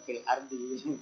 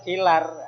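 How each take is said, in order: First: A glottal stop is heard before 'ardi'. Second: The 'l' runs straight into 'ardi', no glottal stop.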